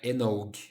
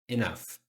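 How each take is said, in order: First: The word ends with a hard g sound. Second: The word ends with an f sound. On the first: The speaker calls it wrong. "Não é enog" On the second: The speaker calls it right. "A pronúncia é isso aqui"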